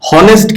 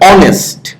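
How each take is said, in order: First: The word begins with an h sound. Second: The word begins with a vowel sound. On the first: The speaker calls it wrong. "হনেস্ট কিন্তু উচ্চারণ করো না তুমি" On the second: The speaker calls it right. "কিন্তু এটার উচ্চারণ কেমন হয়?"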